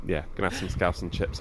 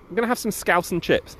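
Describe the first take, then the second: First: Softer, lower throwaway mutter; dropped, half-swallowed repeat; quiet deflated repeat. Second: High, bouncy excitement about scouse and chips; pitched-up eager delight; excited gloat. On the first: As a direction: say it again like an afterthought to yourself. Rob repeats the line, deflated. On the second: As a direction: sell it like a treat you can't wait for. Rob gloating about Liverpool trip. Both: Acted.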